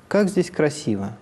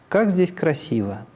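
The two takes are said the same way.

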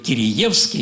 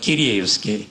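First: The second syllable has an 'ee' vowel. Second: The second syllable has an 'eh' vowel. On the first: This is the traditional local way of saying it. "я все время говорю «Кириевский»" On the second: This is how philosophy books say it. "и там говорят «Киреевский»"

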